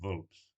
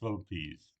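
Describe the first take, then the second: First: The word is said with one syllable. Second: The word is said with two syllables. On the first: The speaker calls it wrong. "not Vulps" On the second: The speaker calls it right. "pronunciation is Vulpes"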